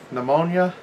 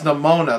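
First: It sounds like the disease name pneumonia. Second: It sounds different from the disease name. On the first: The speaker calls it wrong. "I was just saying it like it's a disease or something" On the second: The speaker calls it right. "No, it's Pneumonia. That's it"

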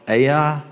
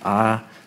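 First: The name does not sound like 'eye'. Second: The name sounds just like 'eye'. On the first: "I'm going to call it Ai" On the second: "Some people pronounce it I, and it might sound funny when I say it, just I"

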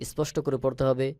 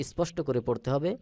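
No difference in how they are said.

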